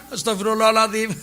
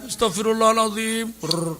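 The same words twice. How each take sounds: First: Plea bursting into a fake guffaw; mock laughing istighfar. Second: Put-on tearful plea; mock weeping istighfar. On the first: Preacher parodies crazy person laughing while repenting, mock laughing istighfar. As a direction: recite it, then laugh like a madman. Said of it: "apa ketawa kan". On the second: Preacher shows the proper tearful repentance, mock weeping. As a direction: imitate crying while asking forgiveness. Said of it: "istighfar nangis".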